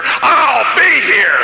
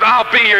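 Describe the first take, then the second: First: Stretched out, cracking shout, very slow; defiant shout. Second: Said in the usual way. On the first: Retold or imitated. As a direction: fling it back as a vow. Final defiant retort to sergeant.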